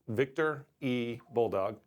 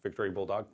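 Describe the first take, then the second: First: The name is said slowly, letter set apart. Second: The name is said fast, run together.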